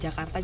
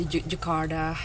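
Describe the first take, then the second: First: It is said with a natural Indonesian accent. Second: It is said with a put-on Western accent. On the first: "bilang Jakarta" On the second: "sok ke barat-baratan"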